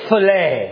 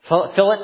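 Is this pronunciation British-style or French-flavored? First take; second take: French-flavored; British-style. First: The word is said with a French flavor. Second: The word is said the British way. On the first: "I say fillet. I got a little more European flair" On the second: "If you're British, I think they say fillet"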